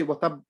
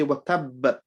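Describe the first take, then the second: First: "tab" cut off on a single b; short "tab", lips closing without release; wrong dead stop. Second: "tab" slowed, with a held, bounced b; emphasised double b closing "tab", released in a tiny echo; bounced stop. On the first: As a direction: end "tab" with no bounce on the b. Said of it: "We don't say wa tab and we stop". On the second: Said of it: "We say wa tab like that". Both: Shown as a demonstration.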